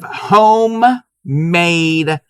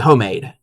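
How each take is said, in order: First: The word is enunciated clearly and carefully. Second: The word is said casually, like 'hoe-made'. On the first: The speaker calls it right. "I gotta enunciate when I say this" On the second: The speaker calls it wrong. "If I say it like I normally would"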